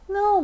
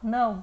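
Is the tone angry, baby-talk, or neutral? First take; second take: baby-talk; neutral. First: It is said in a soft baby-talk tone. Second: It is said in a plain, neutral tone. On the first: "bebê"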